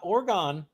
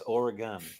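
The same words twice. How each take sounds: First: The word is said with two syllables. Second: The word is said with three syllables. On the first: The speaker calls it wrong. "not Oregon. ... Not two" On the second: The speaker calls it right. "It's Oregon, ... It's three syllables"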